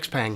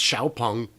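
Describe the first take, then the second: First: The name is said as English "Ex-peng." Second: The name is said as Chinese "Xiaopeng." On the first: "It's America, buddy" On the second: "the Xpeng is pronounced Xiaopeng"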